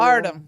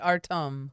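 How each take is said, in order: First: It is said in a Midwestern American accent. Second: It is said carefully, following the spelled pronunciation. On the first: "Midwest accent on it" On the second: "he spelled it phonetically for me"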